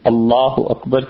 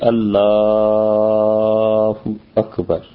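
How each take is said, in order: First: The L sound is held at normal length. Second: The L sound is drawn out very long. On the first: The speaker calls it right. "اللہ اکبر کی بجائے" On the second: The speaker calls it wrong. "لام کو اس نے کھینچا"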